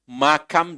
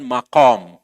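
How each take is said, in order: First: The middle consonant is a plain front k. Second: The middle consonant is a deep throat q. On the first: The speaker calls it wrong. "Banyak orang Indonesia yang mengucapkannya dengan makam" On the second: The speaker calls it right. "Itu pakai kaf, bukan pakai kaf"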